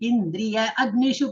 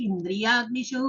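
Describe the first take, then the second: First: The two words are said separately. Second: The two words are merged into one word. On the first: "இந்திரிய அக்னிஷு படிக்கலாம்" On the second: "இல்ல இந்திரியாக்னிஷு"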